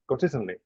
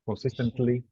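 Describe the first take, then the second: First: The syllables are relaxed and run together. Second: Every syllable is pronounced fully and strongly. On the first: "you will say it naturally" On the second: "very pronounced"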